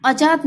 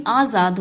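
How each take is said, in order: First: आजाद said "ajaad", with a J sound. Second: आजाद said "aazaad", long A and buzzing Z; Z sound. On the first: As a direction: replace the Z in आजाद with J. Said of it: "नहीं आजाद होता है". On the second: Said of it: "यहाँ पे एक नुक्ता भी रहेगा". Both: Shown as a demonstration.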